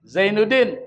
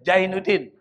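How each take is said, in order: First: The name begins with a z sound. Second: The name begins with a j sound. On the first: "Zai jadi J" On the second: "Orang Betawi tuh ngomongin Z, Z jadi J"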